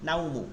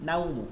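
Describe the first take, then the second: No difference in how they are said.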